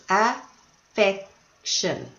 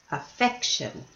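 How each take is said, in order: First: Affection, said slowly with the middle syllable af-FEC-tion leaned on; stress on the middle syllable. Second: Affection, quietly repeated with af-FEC-tion marked; stress on the middle syllable. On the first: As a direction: stretch out Affection and lean on FEC. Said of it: "has three syllables". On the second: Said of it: "Where was the stress?". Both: Shown as a demonstration.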